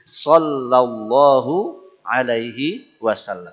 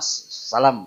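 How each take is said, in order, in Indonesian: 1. Frasa itu diucapkan lengkap, setiap suku katanya jelas. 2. Frasa itu diucapkan menyatu dan tidak jelas. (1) "mesti bagus" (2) "Enggak jelas ya. Enggak boleh"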